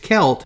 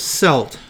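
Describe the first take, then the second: First: The word begins with a hard K sound. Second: The word begins with a soft S sound. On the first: "the Europeans' tendency is it's Celt, which comes from the Greek term for them from the ancient times of Keltoi" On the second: "some people will pronounce this Celt"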